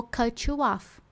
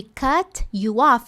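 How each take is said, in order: First: "cut you off" blended as "cutchu-off"; linked. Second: "cut you off" with each word apart, slow; separate words, slow. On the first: Teacher showing the linked version from the clip. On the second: Teacher showing the unlinked version, slowly. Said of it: "ao invés de". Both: Shown as a demonstration.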